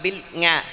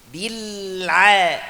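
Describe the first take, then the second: First: An ng sound follows the l. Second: A throaty ain sound follows the l. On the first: The speaker calls it wrong. "bukan bukan bil nga" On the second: The speaker calls it right. "Saya jelaskan aja"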